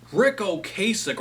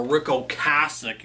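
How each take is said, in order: First: [name] said "oh-KAY-sick"; habitual mispronunciation. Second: [name] said "oh-CASS-ick"; proper pronunciation. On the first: Record reviewer trying the name he's used to, [name] as oh-KAY-sick. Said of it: "I'm so used to saying". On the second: Record reviewer correcting himself on the name, [name] as oh-CASS-ick. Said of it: "You gotta say it properly". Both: Shown as a demonstration.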